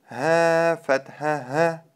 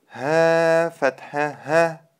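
No difference in how they are said.

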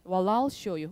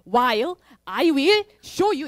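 First: The words run together, with "I will" contracted. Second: Each word is said separately, with "I will" in full. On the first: This is the natural form heard on the test. The speaker calls it right. "연음 처리를" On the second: This is an easy form the test would not use. The speaker calls it wrong. "ETS가 그렇게 만만하게 while I will show you 이렇게 안 하잖아요"

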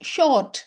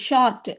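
First: The vowel is a rounded aw sound. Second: The vowel is an open ah sound. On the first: The speaker calls it right. "ஓ மாதிரி ஒரு sound வரும்" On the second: The speaker calls it wrong. "இஷு ஆ ஷா இரு இட்டு ஷார்ட் அப்படின்னு இதை நம்ம சொல்லக்கூடாது"

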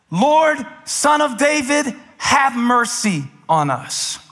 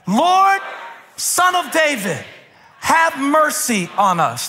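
First: It is said without full shouting. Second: It is shouted loudly.

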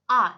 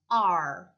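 First: A plain ah vowel with no r sound. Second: The vowel ends with a curled-tongue r sound. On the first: The speaker calls it wrong. "이게 아니라" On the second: The speaker calls it right. "혀를 안으로 딱 말아주셔야 돼요"

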